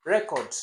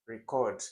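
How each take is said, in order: First: "record" stressed on a loud, higher first syllable, REC-ord. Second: "record" stressed on the second syllable, re-CORD. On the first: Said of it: "the way you pronounce". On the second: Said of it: "in different contexts is different". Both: Shown as a demonstration.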